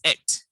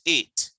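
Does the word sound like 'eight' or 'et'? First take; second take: et; eight. First: The word is said like 'et'. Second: The word is said like 'eight'. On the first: The speaker calls it right. "A T E is et" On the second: The speaker calls it wrong. "not eight"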